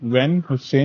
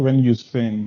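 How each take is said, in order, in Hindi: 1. दूसरे शब्द की शुरुआत में h की आवाज़ होती है। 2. दूसरे शब्द की शुरुआत में h की आवाज़ नहीं होती। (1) "वैन हुसैन नहीं बोलते इसको" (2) "वैन यूसेन यूस यूसेन बोलते हैं"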